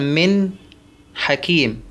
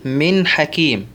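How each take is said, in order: First: There is a break after the first word. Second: The two words run on without a break. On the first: The speaker calls it wrong. "السكت على النون الساكنة والتنوين وفصلهما عن المظهر بعدهما ... ما يصح" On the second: The speaker calls it right. "أقول من حكيم"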